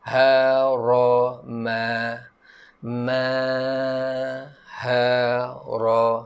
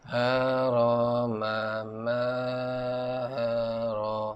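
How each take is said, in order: First: The vowels are said with the mouth wide open. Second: The vowels are said with the mouth barely open. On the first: The speaker calls it right. "kita jatuhkan rahang bawah" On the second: The speaker calls it wrong. "Jangan baca ... mulut pun tak buka kan? ... bunyi dia tu kurang sikit"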